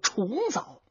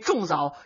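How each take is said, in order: First: The first syllable is said as chong. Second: The first syllable is said as zhong. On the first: The speaker calls it right. "就说重阳节的枣呢" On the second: The speaker calls it wrong. "我们说书人一代一代往下传，就是这么学来的"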